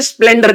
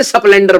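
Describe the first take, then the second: First: Said in the usual way. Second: स्प्लेंडर with a vowel slipped in before the sp, "sasplendar"; local pronunciation. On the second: Shown as a demonstration. Contrasting the standard word with his hometown's स्प्लेंडर, said "sasplendar". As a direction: say स्प्लेंडर as "sa-splen-dar", the small-town way. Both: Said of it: "हमारे यहाँ पे स्प्लेंडर नहीं बोलते".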